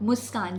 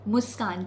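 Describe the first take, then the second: First: The consonant before k sounds like s. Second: The consonant before k sounds like s.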